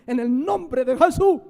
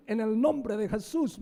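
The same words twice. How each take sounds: First: Loud mock shout of the formula. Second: Said in the usual way. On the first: Preacher imitating a pastor shouting over the sick, loud mock shout. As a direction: belt out the name like a showy pastor. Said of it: "Así, y grita". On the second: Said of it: "creen que es la fórmula".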